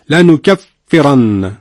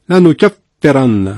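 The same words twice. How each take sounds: Both takes have the same delivery.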